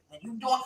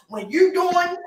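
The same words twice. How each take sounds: First: Said in the usual way. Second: You hit high and loud; stress on you. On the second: Shown as a demonstration. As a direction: punch the word you, louder and higher.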